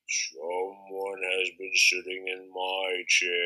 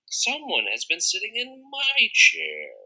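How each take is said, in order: First: A big, deep, growling Papa Bear voice. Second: A medium-sized Mama Bear voice, not growled.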